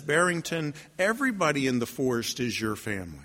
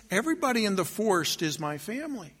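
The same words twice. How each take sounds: First: Low, softened wolf voice; quiet, grave pronouncement; wise wolf. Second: Lighter, softer bunny voice; softly musing, in the usual register; wondering bunny. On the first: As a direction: reassure gently in a low register. Wolf consoles the lonely bunny. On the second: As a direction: think it aloud with dawning wonder. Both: Acted.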